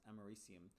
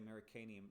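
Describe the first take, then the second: First: No extra syllable comes before the ending. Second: An extra 'an' syllable comes before the ending. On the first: The speaker calls it right. "It's actually pronounced Americium" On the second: The speaker calls it wrong. "knowing that it's not pronounced that way"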